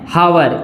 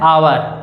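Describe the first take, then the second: First: The word starts with a sounded h. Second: The word starts with a silent h. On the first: The speaker calls it wrong. "कई लोग एच O यू आर इसको क्या पढ़ते हैं, हावर पढ़ते हैं" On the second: The speaker calls it right. "इसको हावर नहीं पढ़ा जाता ... इसको क्या प्रोनाउंस किया जाता है, आवर"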